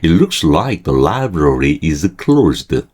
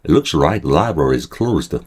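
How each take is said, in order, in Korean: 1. 문장을 느리게 읽습니다. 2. 문장을 빠르게 읽습니다. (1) "천천히 읽을게요" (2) "아, 빨리 읽었네"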